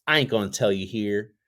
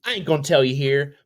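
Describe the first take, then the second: First: Said in the usual way. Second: Said again higher and louder; higher playful repeat. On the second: Shown as a demonstration. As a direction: bump it up in a teasing voice. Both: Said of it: "repeat, second higher".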